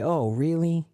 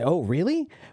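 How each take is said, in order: First: It sounds dismayed and sympathetic. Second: It sounds surprised and interested. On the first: The news is bad. "if somebody says something bad" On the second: The news is surprising. "if someone says something surprising"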